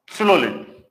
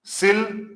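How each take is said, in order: First: सिलोलिन said as the loose everyday form; the teacher saying सिलोलिन the way students usually do; common wrong pronunciation. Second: सिलजिज्म said carefully as the proper form; the teacher models सिलजिज्म for the class; correct pronunciation. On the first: कक्षा में छात्रों को आम गलत उच्चारण सुनाते शिक्षक, हल्के ढंग से. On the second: कक्षा को सही उच्चारण बताते शिक्षक, साफ़ और ध्यान से. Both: Shown as a demonstration. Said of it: "इसका जो सही उच्चारण होता है".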